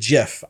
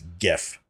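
First: The word starts with a soft G sound. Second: The word starts with a hard G sound. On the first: The speaker calls it wrong. "No one pronounces it GIF" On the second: The speaker calls it right. "which is a hard G. Therefore, it's GIF"

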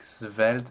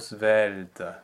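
First: The first consonant is a frank, voiceless s. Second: The first consonant is a soft, lightly voiced z. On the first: The speaker calls it wrong. "draw a little bit too much attention to the initial consonant" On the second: The speaker calls it right. "A very soft Z sound"

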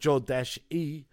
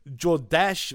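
First: The name ends with a final vowel sound. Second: The name ends without a final vowel sound. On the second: "without the E"

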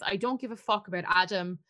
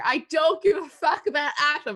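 First: The line is said at normal volume. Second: The line is said at raised volume.

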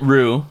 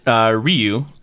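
First: The name sounds like 'roo', with no y-glide. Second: The name sounds like 'ryoo', with a y-glide. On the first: "you pronounced it Rue, like Hunger Games" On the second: "I pronounced it Ryu, like Street Fighter"

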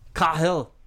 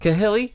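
First: The name ends on the L sound. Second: The name ends with an extra ee vowel. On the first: The speaker calls it right. "Where's the Y?" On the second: The speaker calls it wrong. "telemarketers will call my house and be like, is Mr. Cahilly there?"

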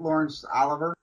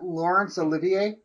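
First: The surname ends with a plain 'ver' sound. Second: The surname ends with an added 'vee-ay' sound. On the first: The speaker calls it wrong. "not Laurence Oliver" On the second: The speaker calls it right. "isn't it Laurence Olivier"

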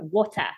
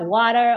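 First: Water is said with a South African accent. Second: Water is said with an American accent. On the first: This is the usual local way of saying it. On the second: This is how the niece says it.

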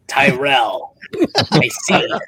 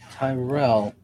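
First: It is said in a Cobra Commander voice. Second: It is said in the speaker's normal voice.

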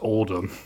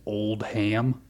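First: It is one word, with the h blended away. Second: It sounds like two words, with a clear h. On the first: The speaker calls it right. "I think that name is pronounced Oldham" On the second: The speaker calls it wrong. "he pronounced the last name as Old Ham"

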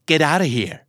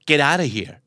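No difference in how they are said.

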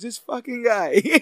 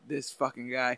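First: It is said in a happy, delighted tone. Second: It is said in an annoyed, mad tone.

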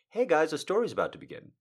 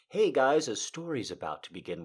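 First: It is said abruptly and forcefully. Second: It is said softly and gently.

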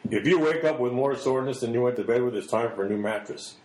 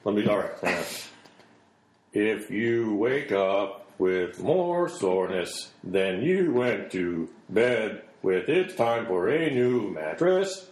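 First: Normal emphasis makes it sound smooth and natural. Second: Odd emphasis makes it sound stiff and robotic. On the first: The speaker calls it right. "I'll read it right this time" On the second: The speaker calls it wrong. "I'm putting the emphasis on the wrong syllable"

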